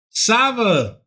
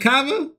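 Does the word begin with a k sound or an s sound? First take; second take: s sound; k sound. First: The word begins with an s sound. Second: The word begins with a k sound. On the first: The speaker calls it right. "that's how you pronounce it the whole time" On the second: The speaker calls it wrong. "I was saying Cava"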